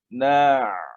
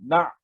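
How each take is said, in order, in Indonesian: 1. Bunyinya mengalir lancar tanpa tertahan. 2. Bunyinya tertahan dan berhenti mendadak. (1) "jadi kita licinkan ain tersebut" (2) "jangan kita sangkutkan dia... tak cantik"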